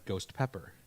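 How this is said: The two words are run together as one. The speaker calls it wrong. "I said ghost pepper"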